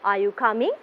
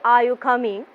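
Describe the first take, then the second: First: The voice goes up at the end. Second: The voice does not rise at the end. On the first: The speaker calls it right. "Your voice will be going up towards the end" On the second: The speaker calls it wrong. "We don't say"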